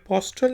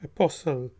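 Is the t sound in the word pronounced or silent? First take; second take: pronounced; silent. First: The t sound is pronounced after the s. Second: The t sound is silent after the s. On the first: The speaker calls it wrong. "ये अपोस्टल नहीं है" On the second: The speaker calls it right. "इसको हम कहेंगे अपोसल"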